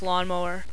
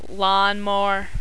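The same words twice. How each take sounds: First: It is said in a standard general accent. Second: It is said in a local regional accent. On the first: "instead of" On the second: "we say"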